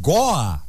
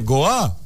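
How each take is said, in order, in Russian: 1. Слово произнесено с ударением в литературной норме. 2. Слово произнесено с ударением, похожим на диалектное. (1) "то это будет правильно" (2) "Это такой говор. Говор какой-то непонятный"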